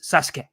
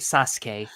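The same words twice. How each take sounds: First: The middle u vowel is dropped. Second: The middle u vowel is clearly pronounced. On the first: The speaker calls it right. "the U is swallowed" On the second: The speaker calls it wrong. "It's it's not like you say Sasuke"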